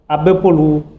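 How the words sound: The final vowel is drawn out, falling low. It is a question. "À la forme interrogative"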